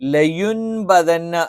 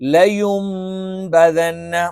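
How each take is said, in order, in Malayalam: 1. b-ക്ക് മുമ്പ് n ശബ്ദം വരുന്നു. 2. b-ക്ക് മുമ്പ് m എന്ന നാസിക ശബ്ദം വരുന്നു. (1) "ശരിക്ക് ലയുൻബദന്ന എന്നാണ്" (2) "ആ നൂനിനെ മീമാക്കി മറച്ചു മണിക്കും"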